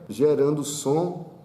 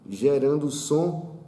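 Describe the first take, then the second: No difference in how they are said.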